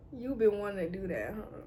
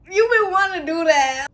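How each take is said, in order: First: Low, soft murmur of embarrassment; hushed reaction. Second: Louder, higher teasing callout; loud reaction. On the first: Reacting inwardly to him touching her hair, quiet and low. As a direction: say it small and under your breath. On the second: Reacting to him touching her hair, loud and high. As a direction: belt it out, playfully exposed. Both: Acted.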